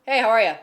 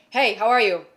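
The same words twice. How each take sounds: First: "Hey, how are ya?" run together as one quick word; slurred into one word. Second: Said in the usual way. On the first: Shown as a demonstration. Showing how a greeting gets mashed into one word. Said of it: "is one word". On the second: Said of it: "it's almost like".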